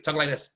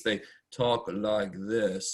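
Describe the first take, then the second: First: Quicker, a touch higher demo of sped-up playback; sped-up talk. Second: Slow, dragged-out demo of debate speech; slow debate talk. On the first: Teacher shows debate speech sped up. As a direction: rattle it off like a video at double speed. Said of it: "So I can speed up". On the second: Teacher mimics debaters talking slowly. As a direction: stretch each word out like a slow debater. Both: Shown as a demonstration.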